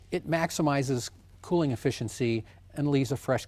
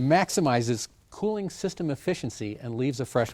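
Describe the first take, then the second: First: It is said in a plain, flat way. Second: It is said in a dramatic, salesy way.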